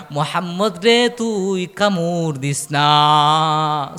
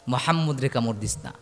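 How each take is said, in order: First: Slow, long-drawn sermon chant; chanted, stretch out the forbidding words melodically; chanted warning. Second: Soft, low, unchanted delivery; low repeated warning. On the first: Lord above forbidding the bite, slow drawn-out chant. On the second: Preacher repeating the warning not to bite, low and soft. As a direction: drop the voice and state it simply. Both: Acted.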